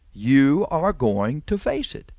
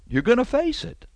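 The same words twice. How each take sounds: First: Slowed, each word spelled out; slow, deliberate. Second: Much higher, pressing on face; raised warning. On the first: Preacher repeats the warning, slow and deliberate. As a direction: lay it down word by word. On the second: Preacher tells the liar he will face it, sharply higher. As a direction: lift the voice high to drive it home. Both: Acted.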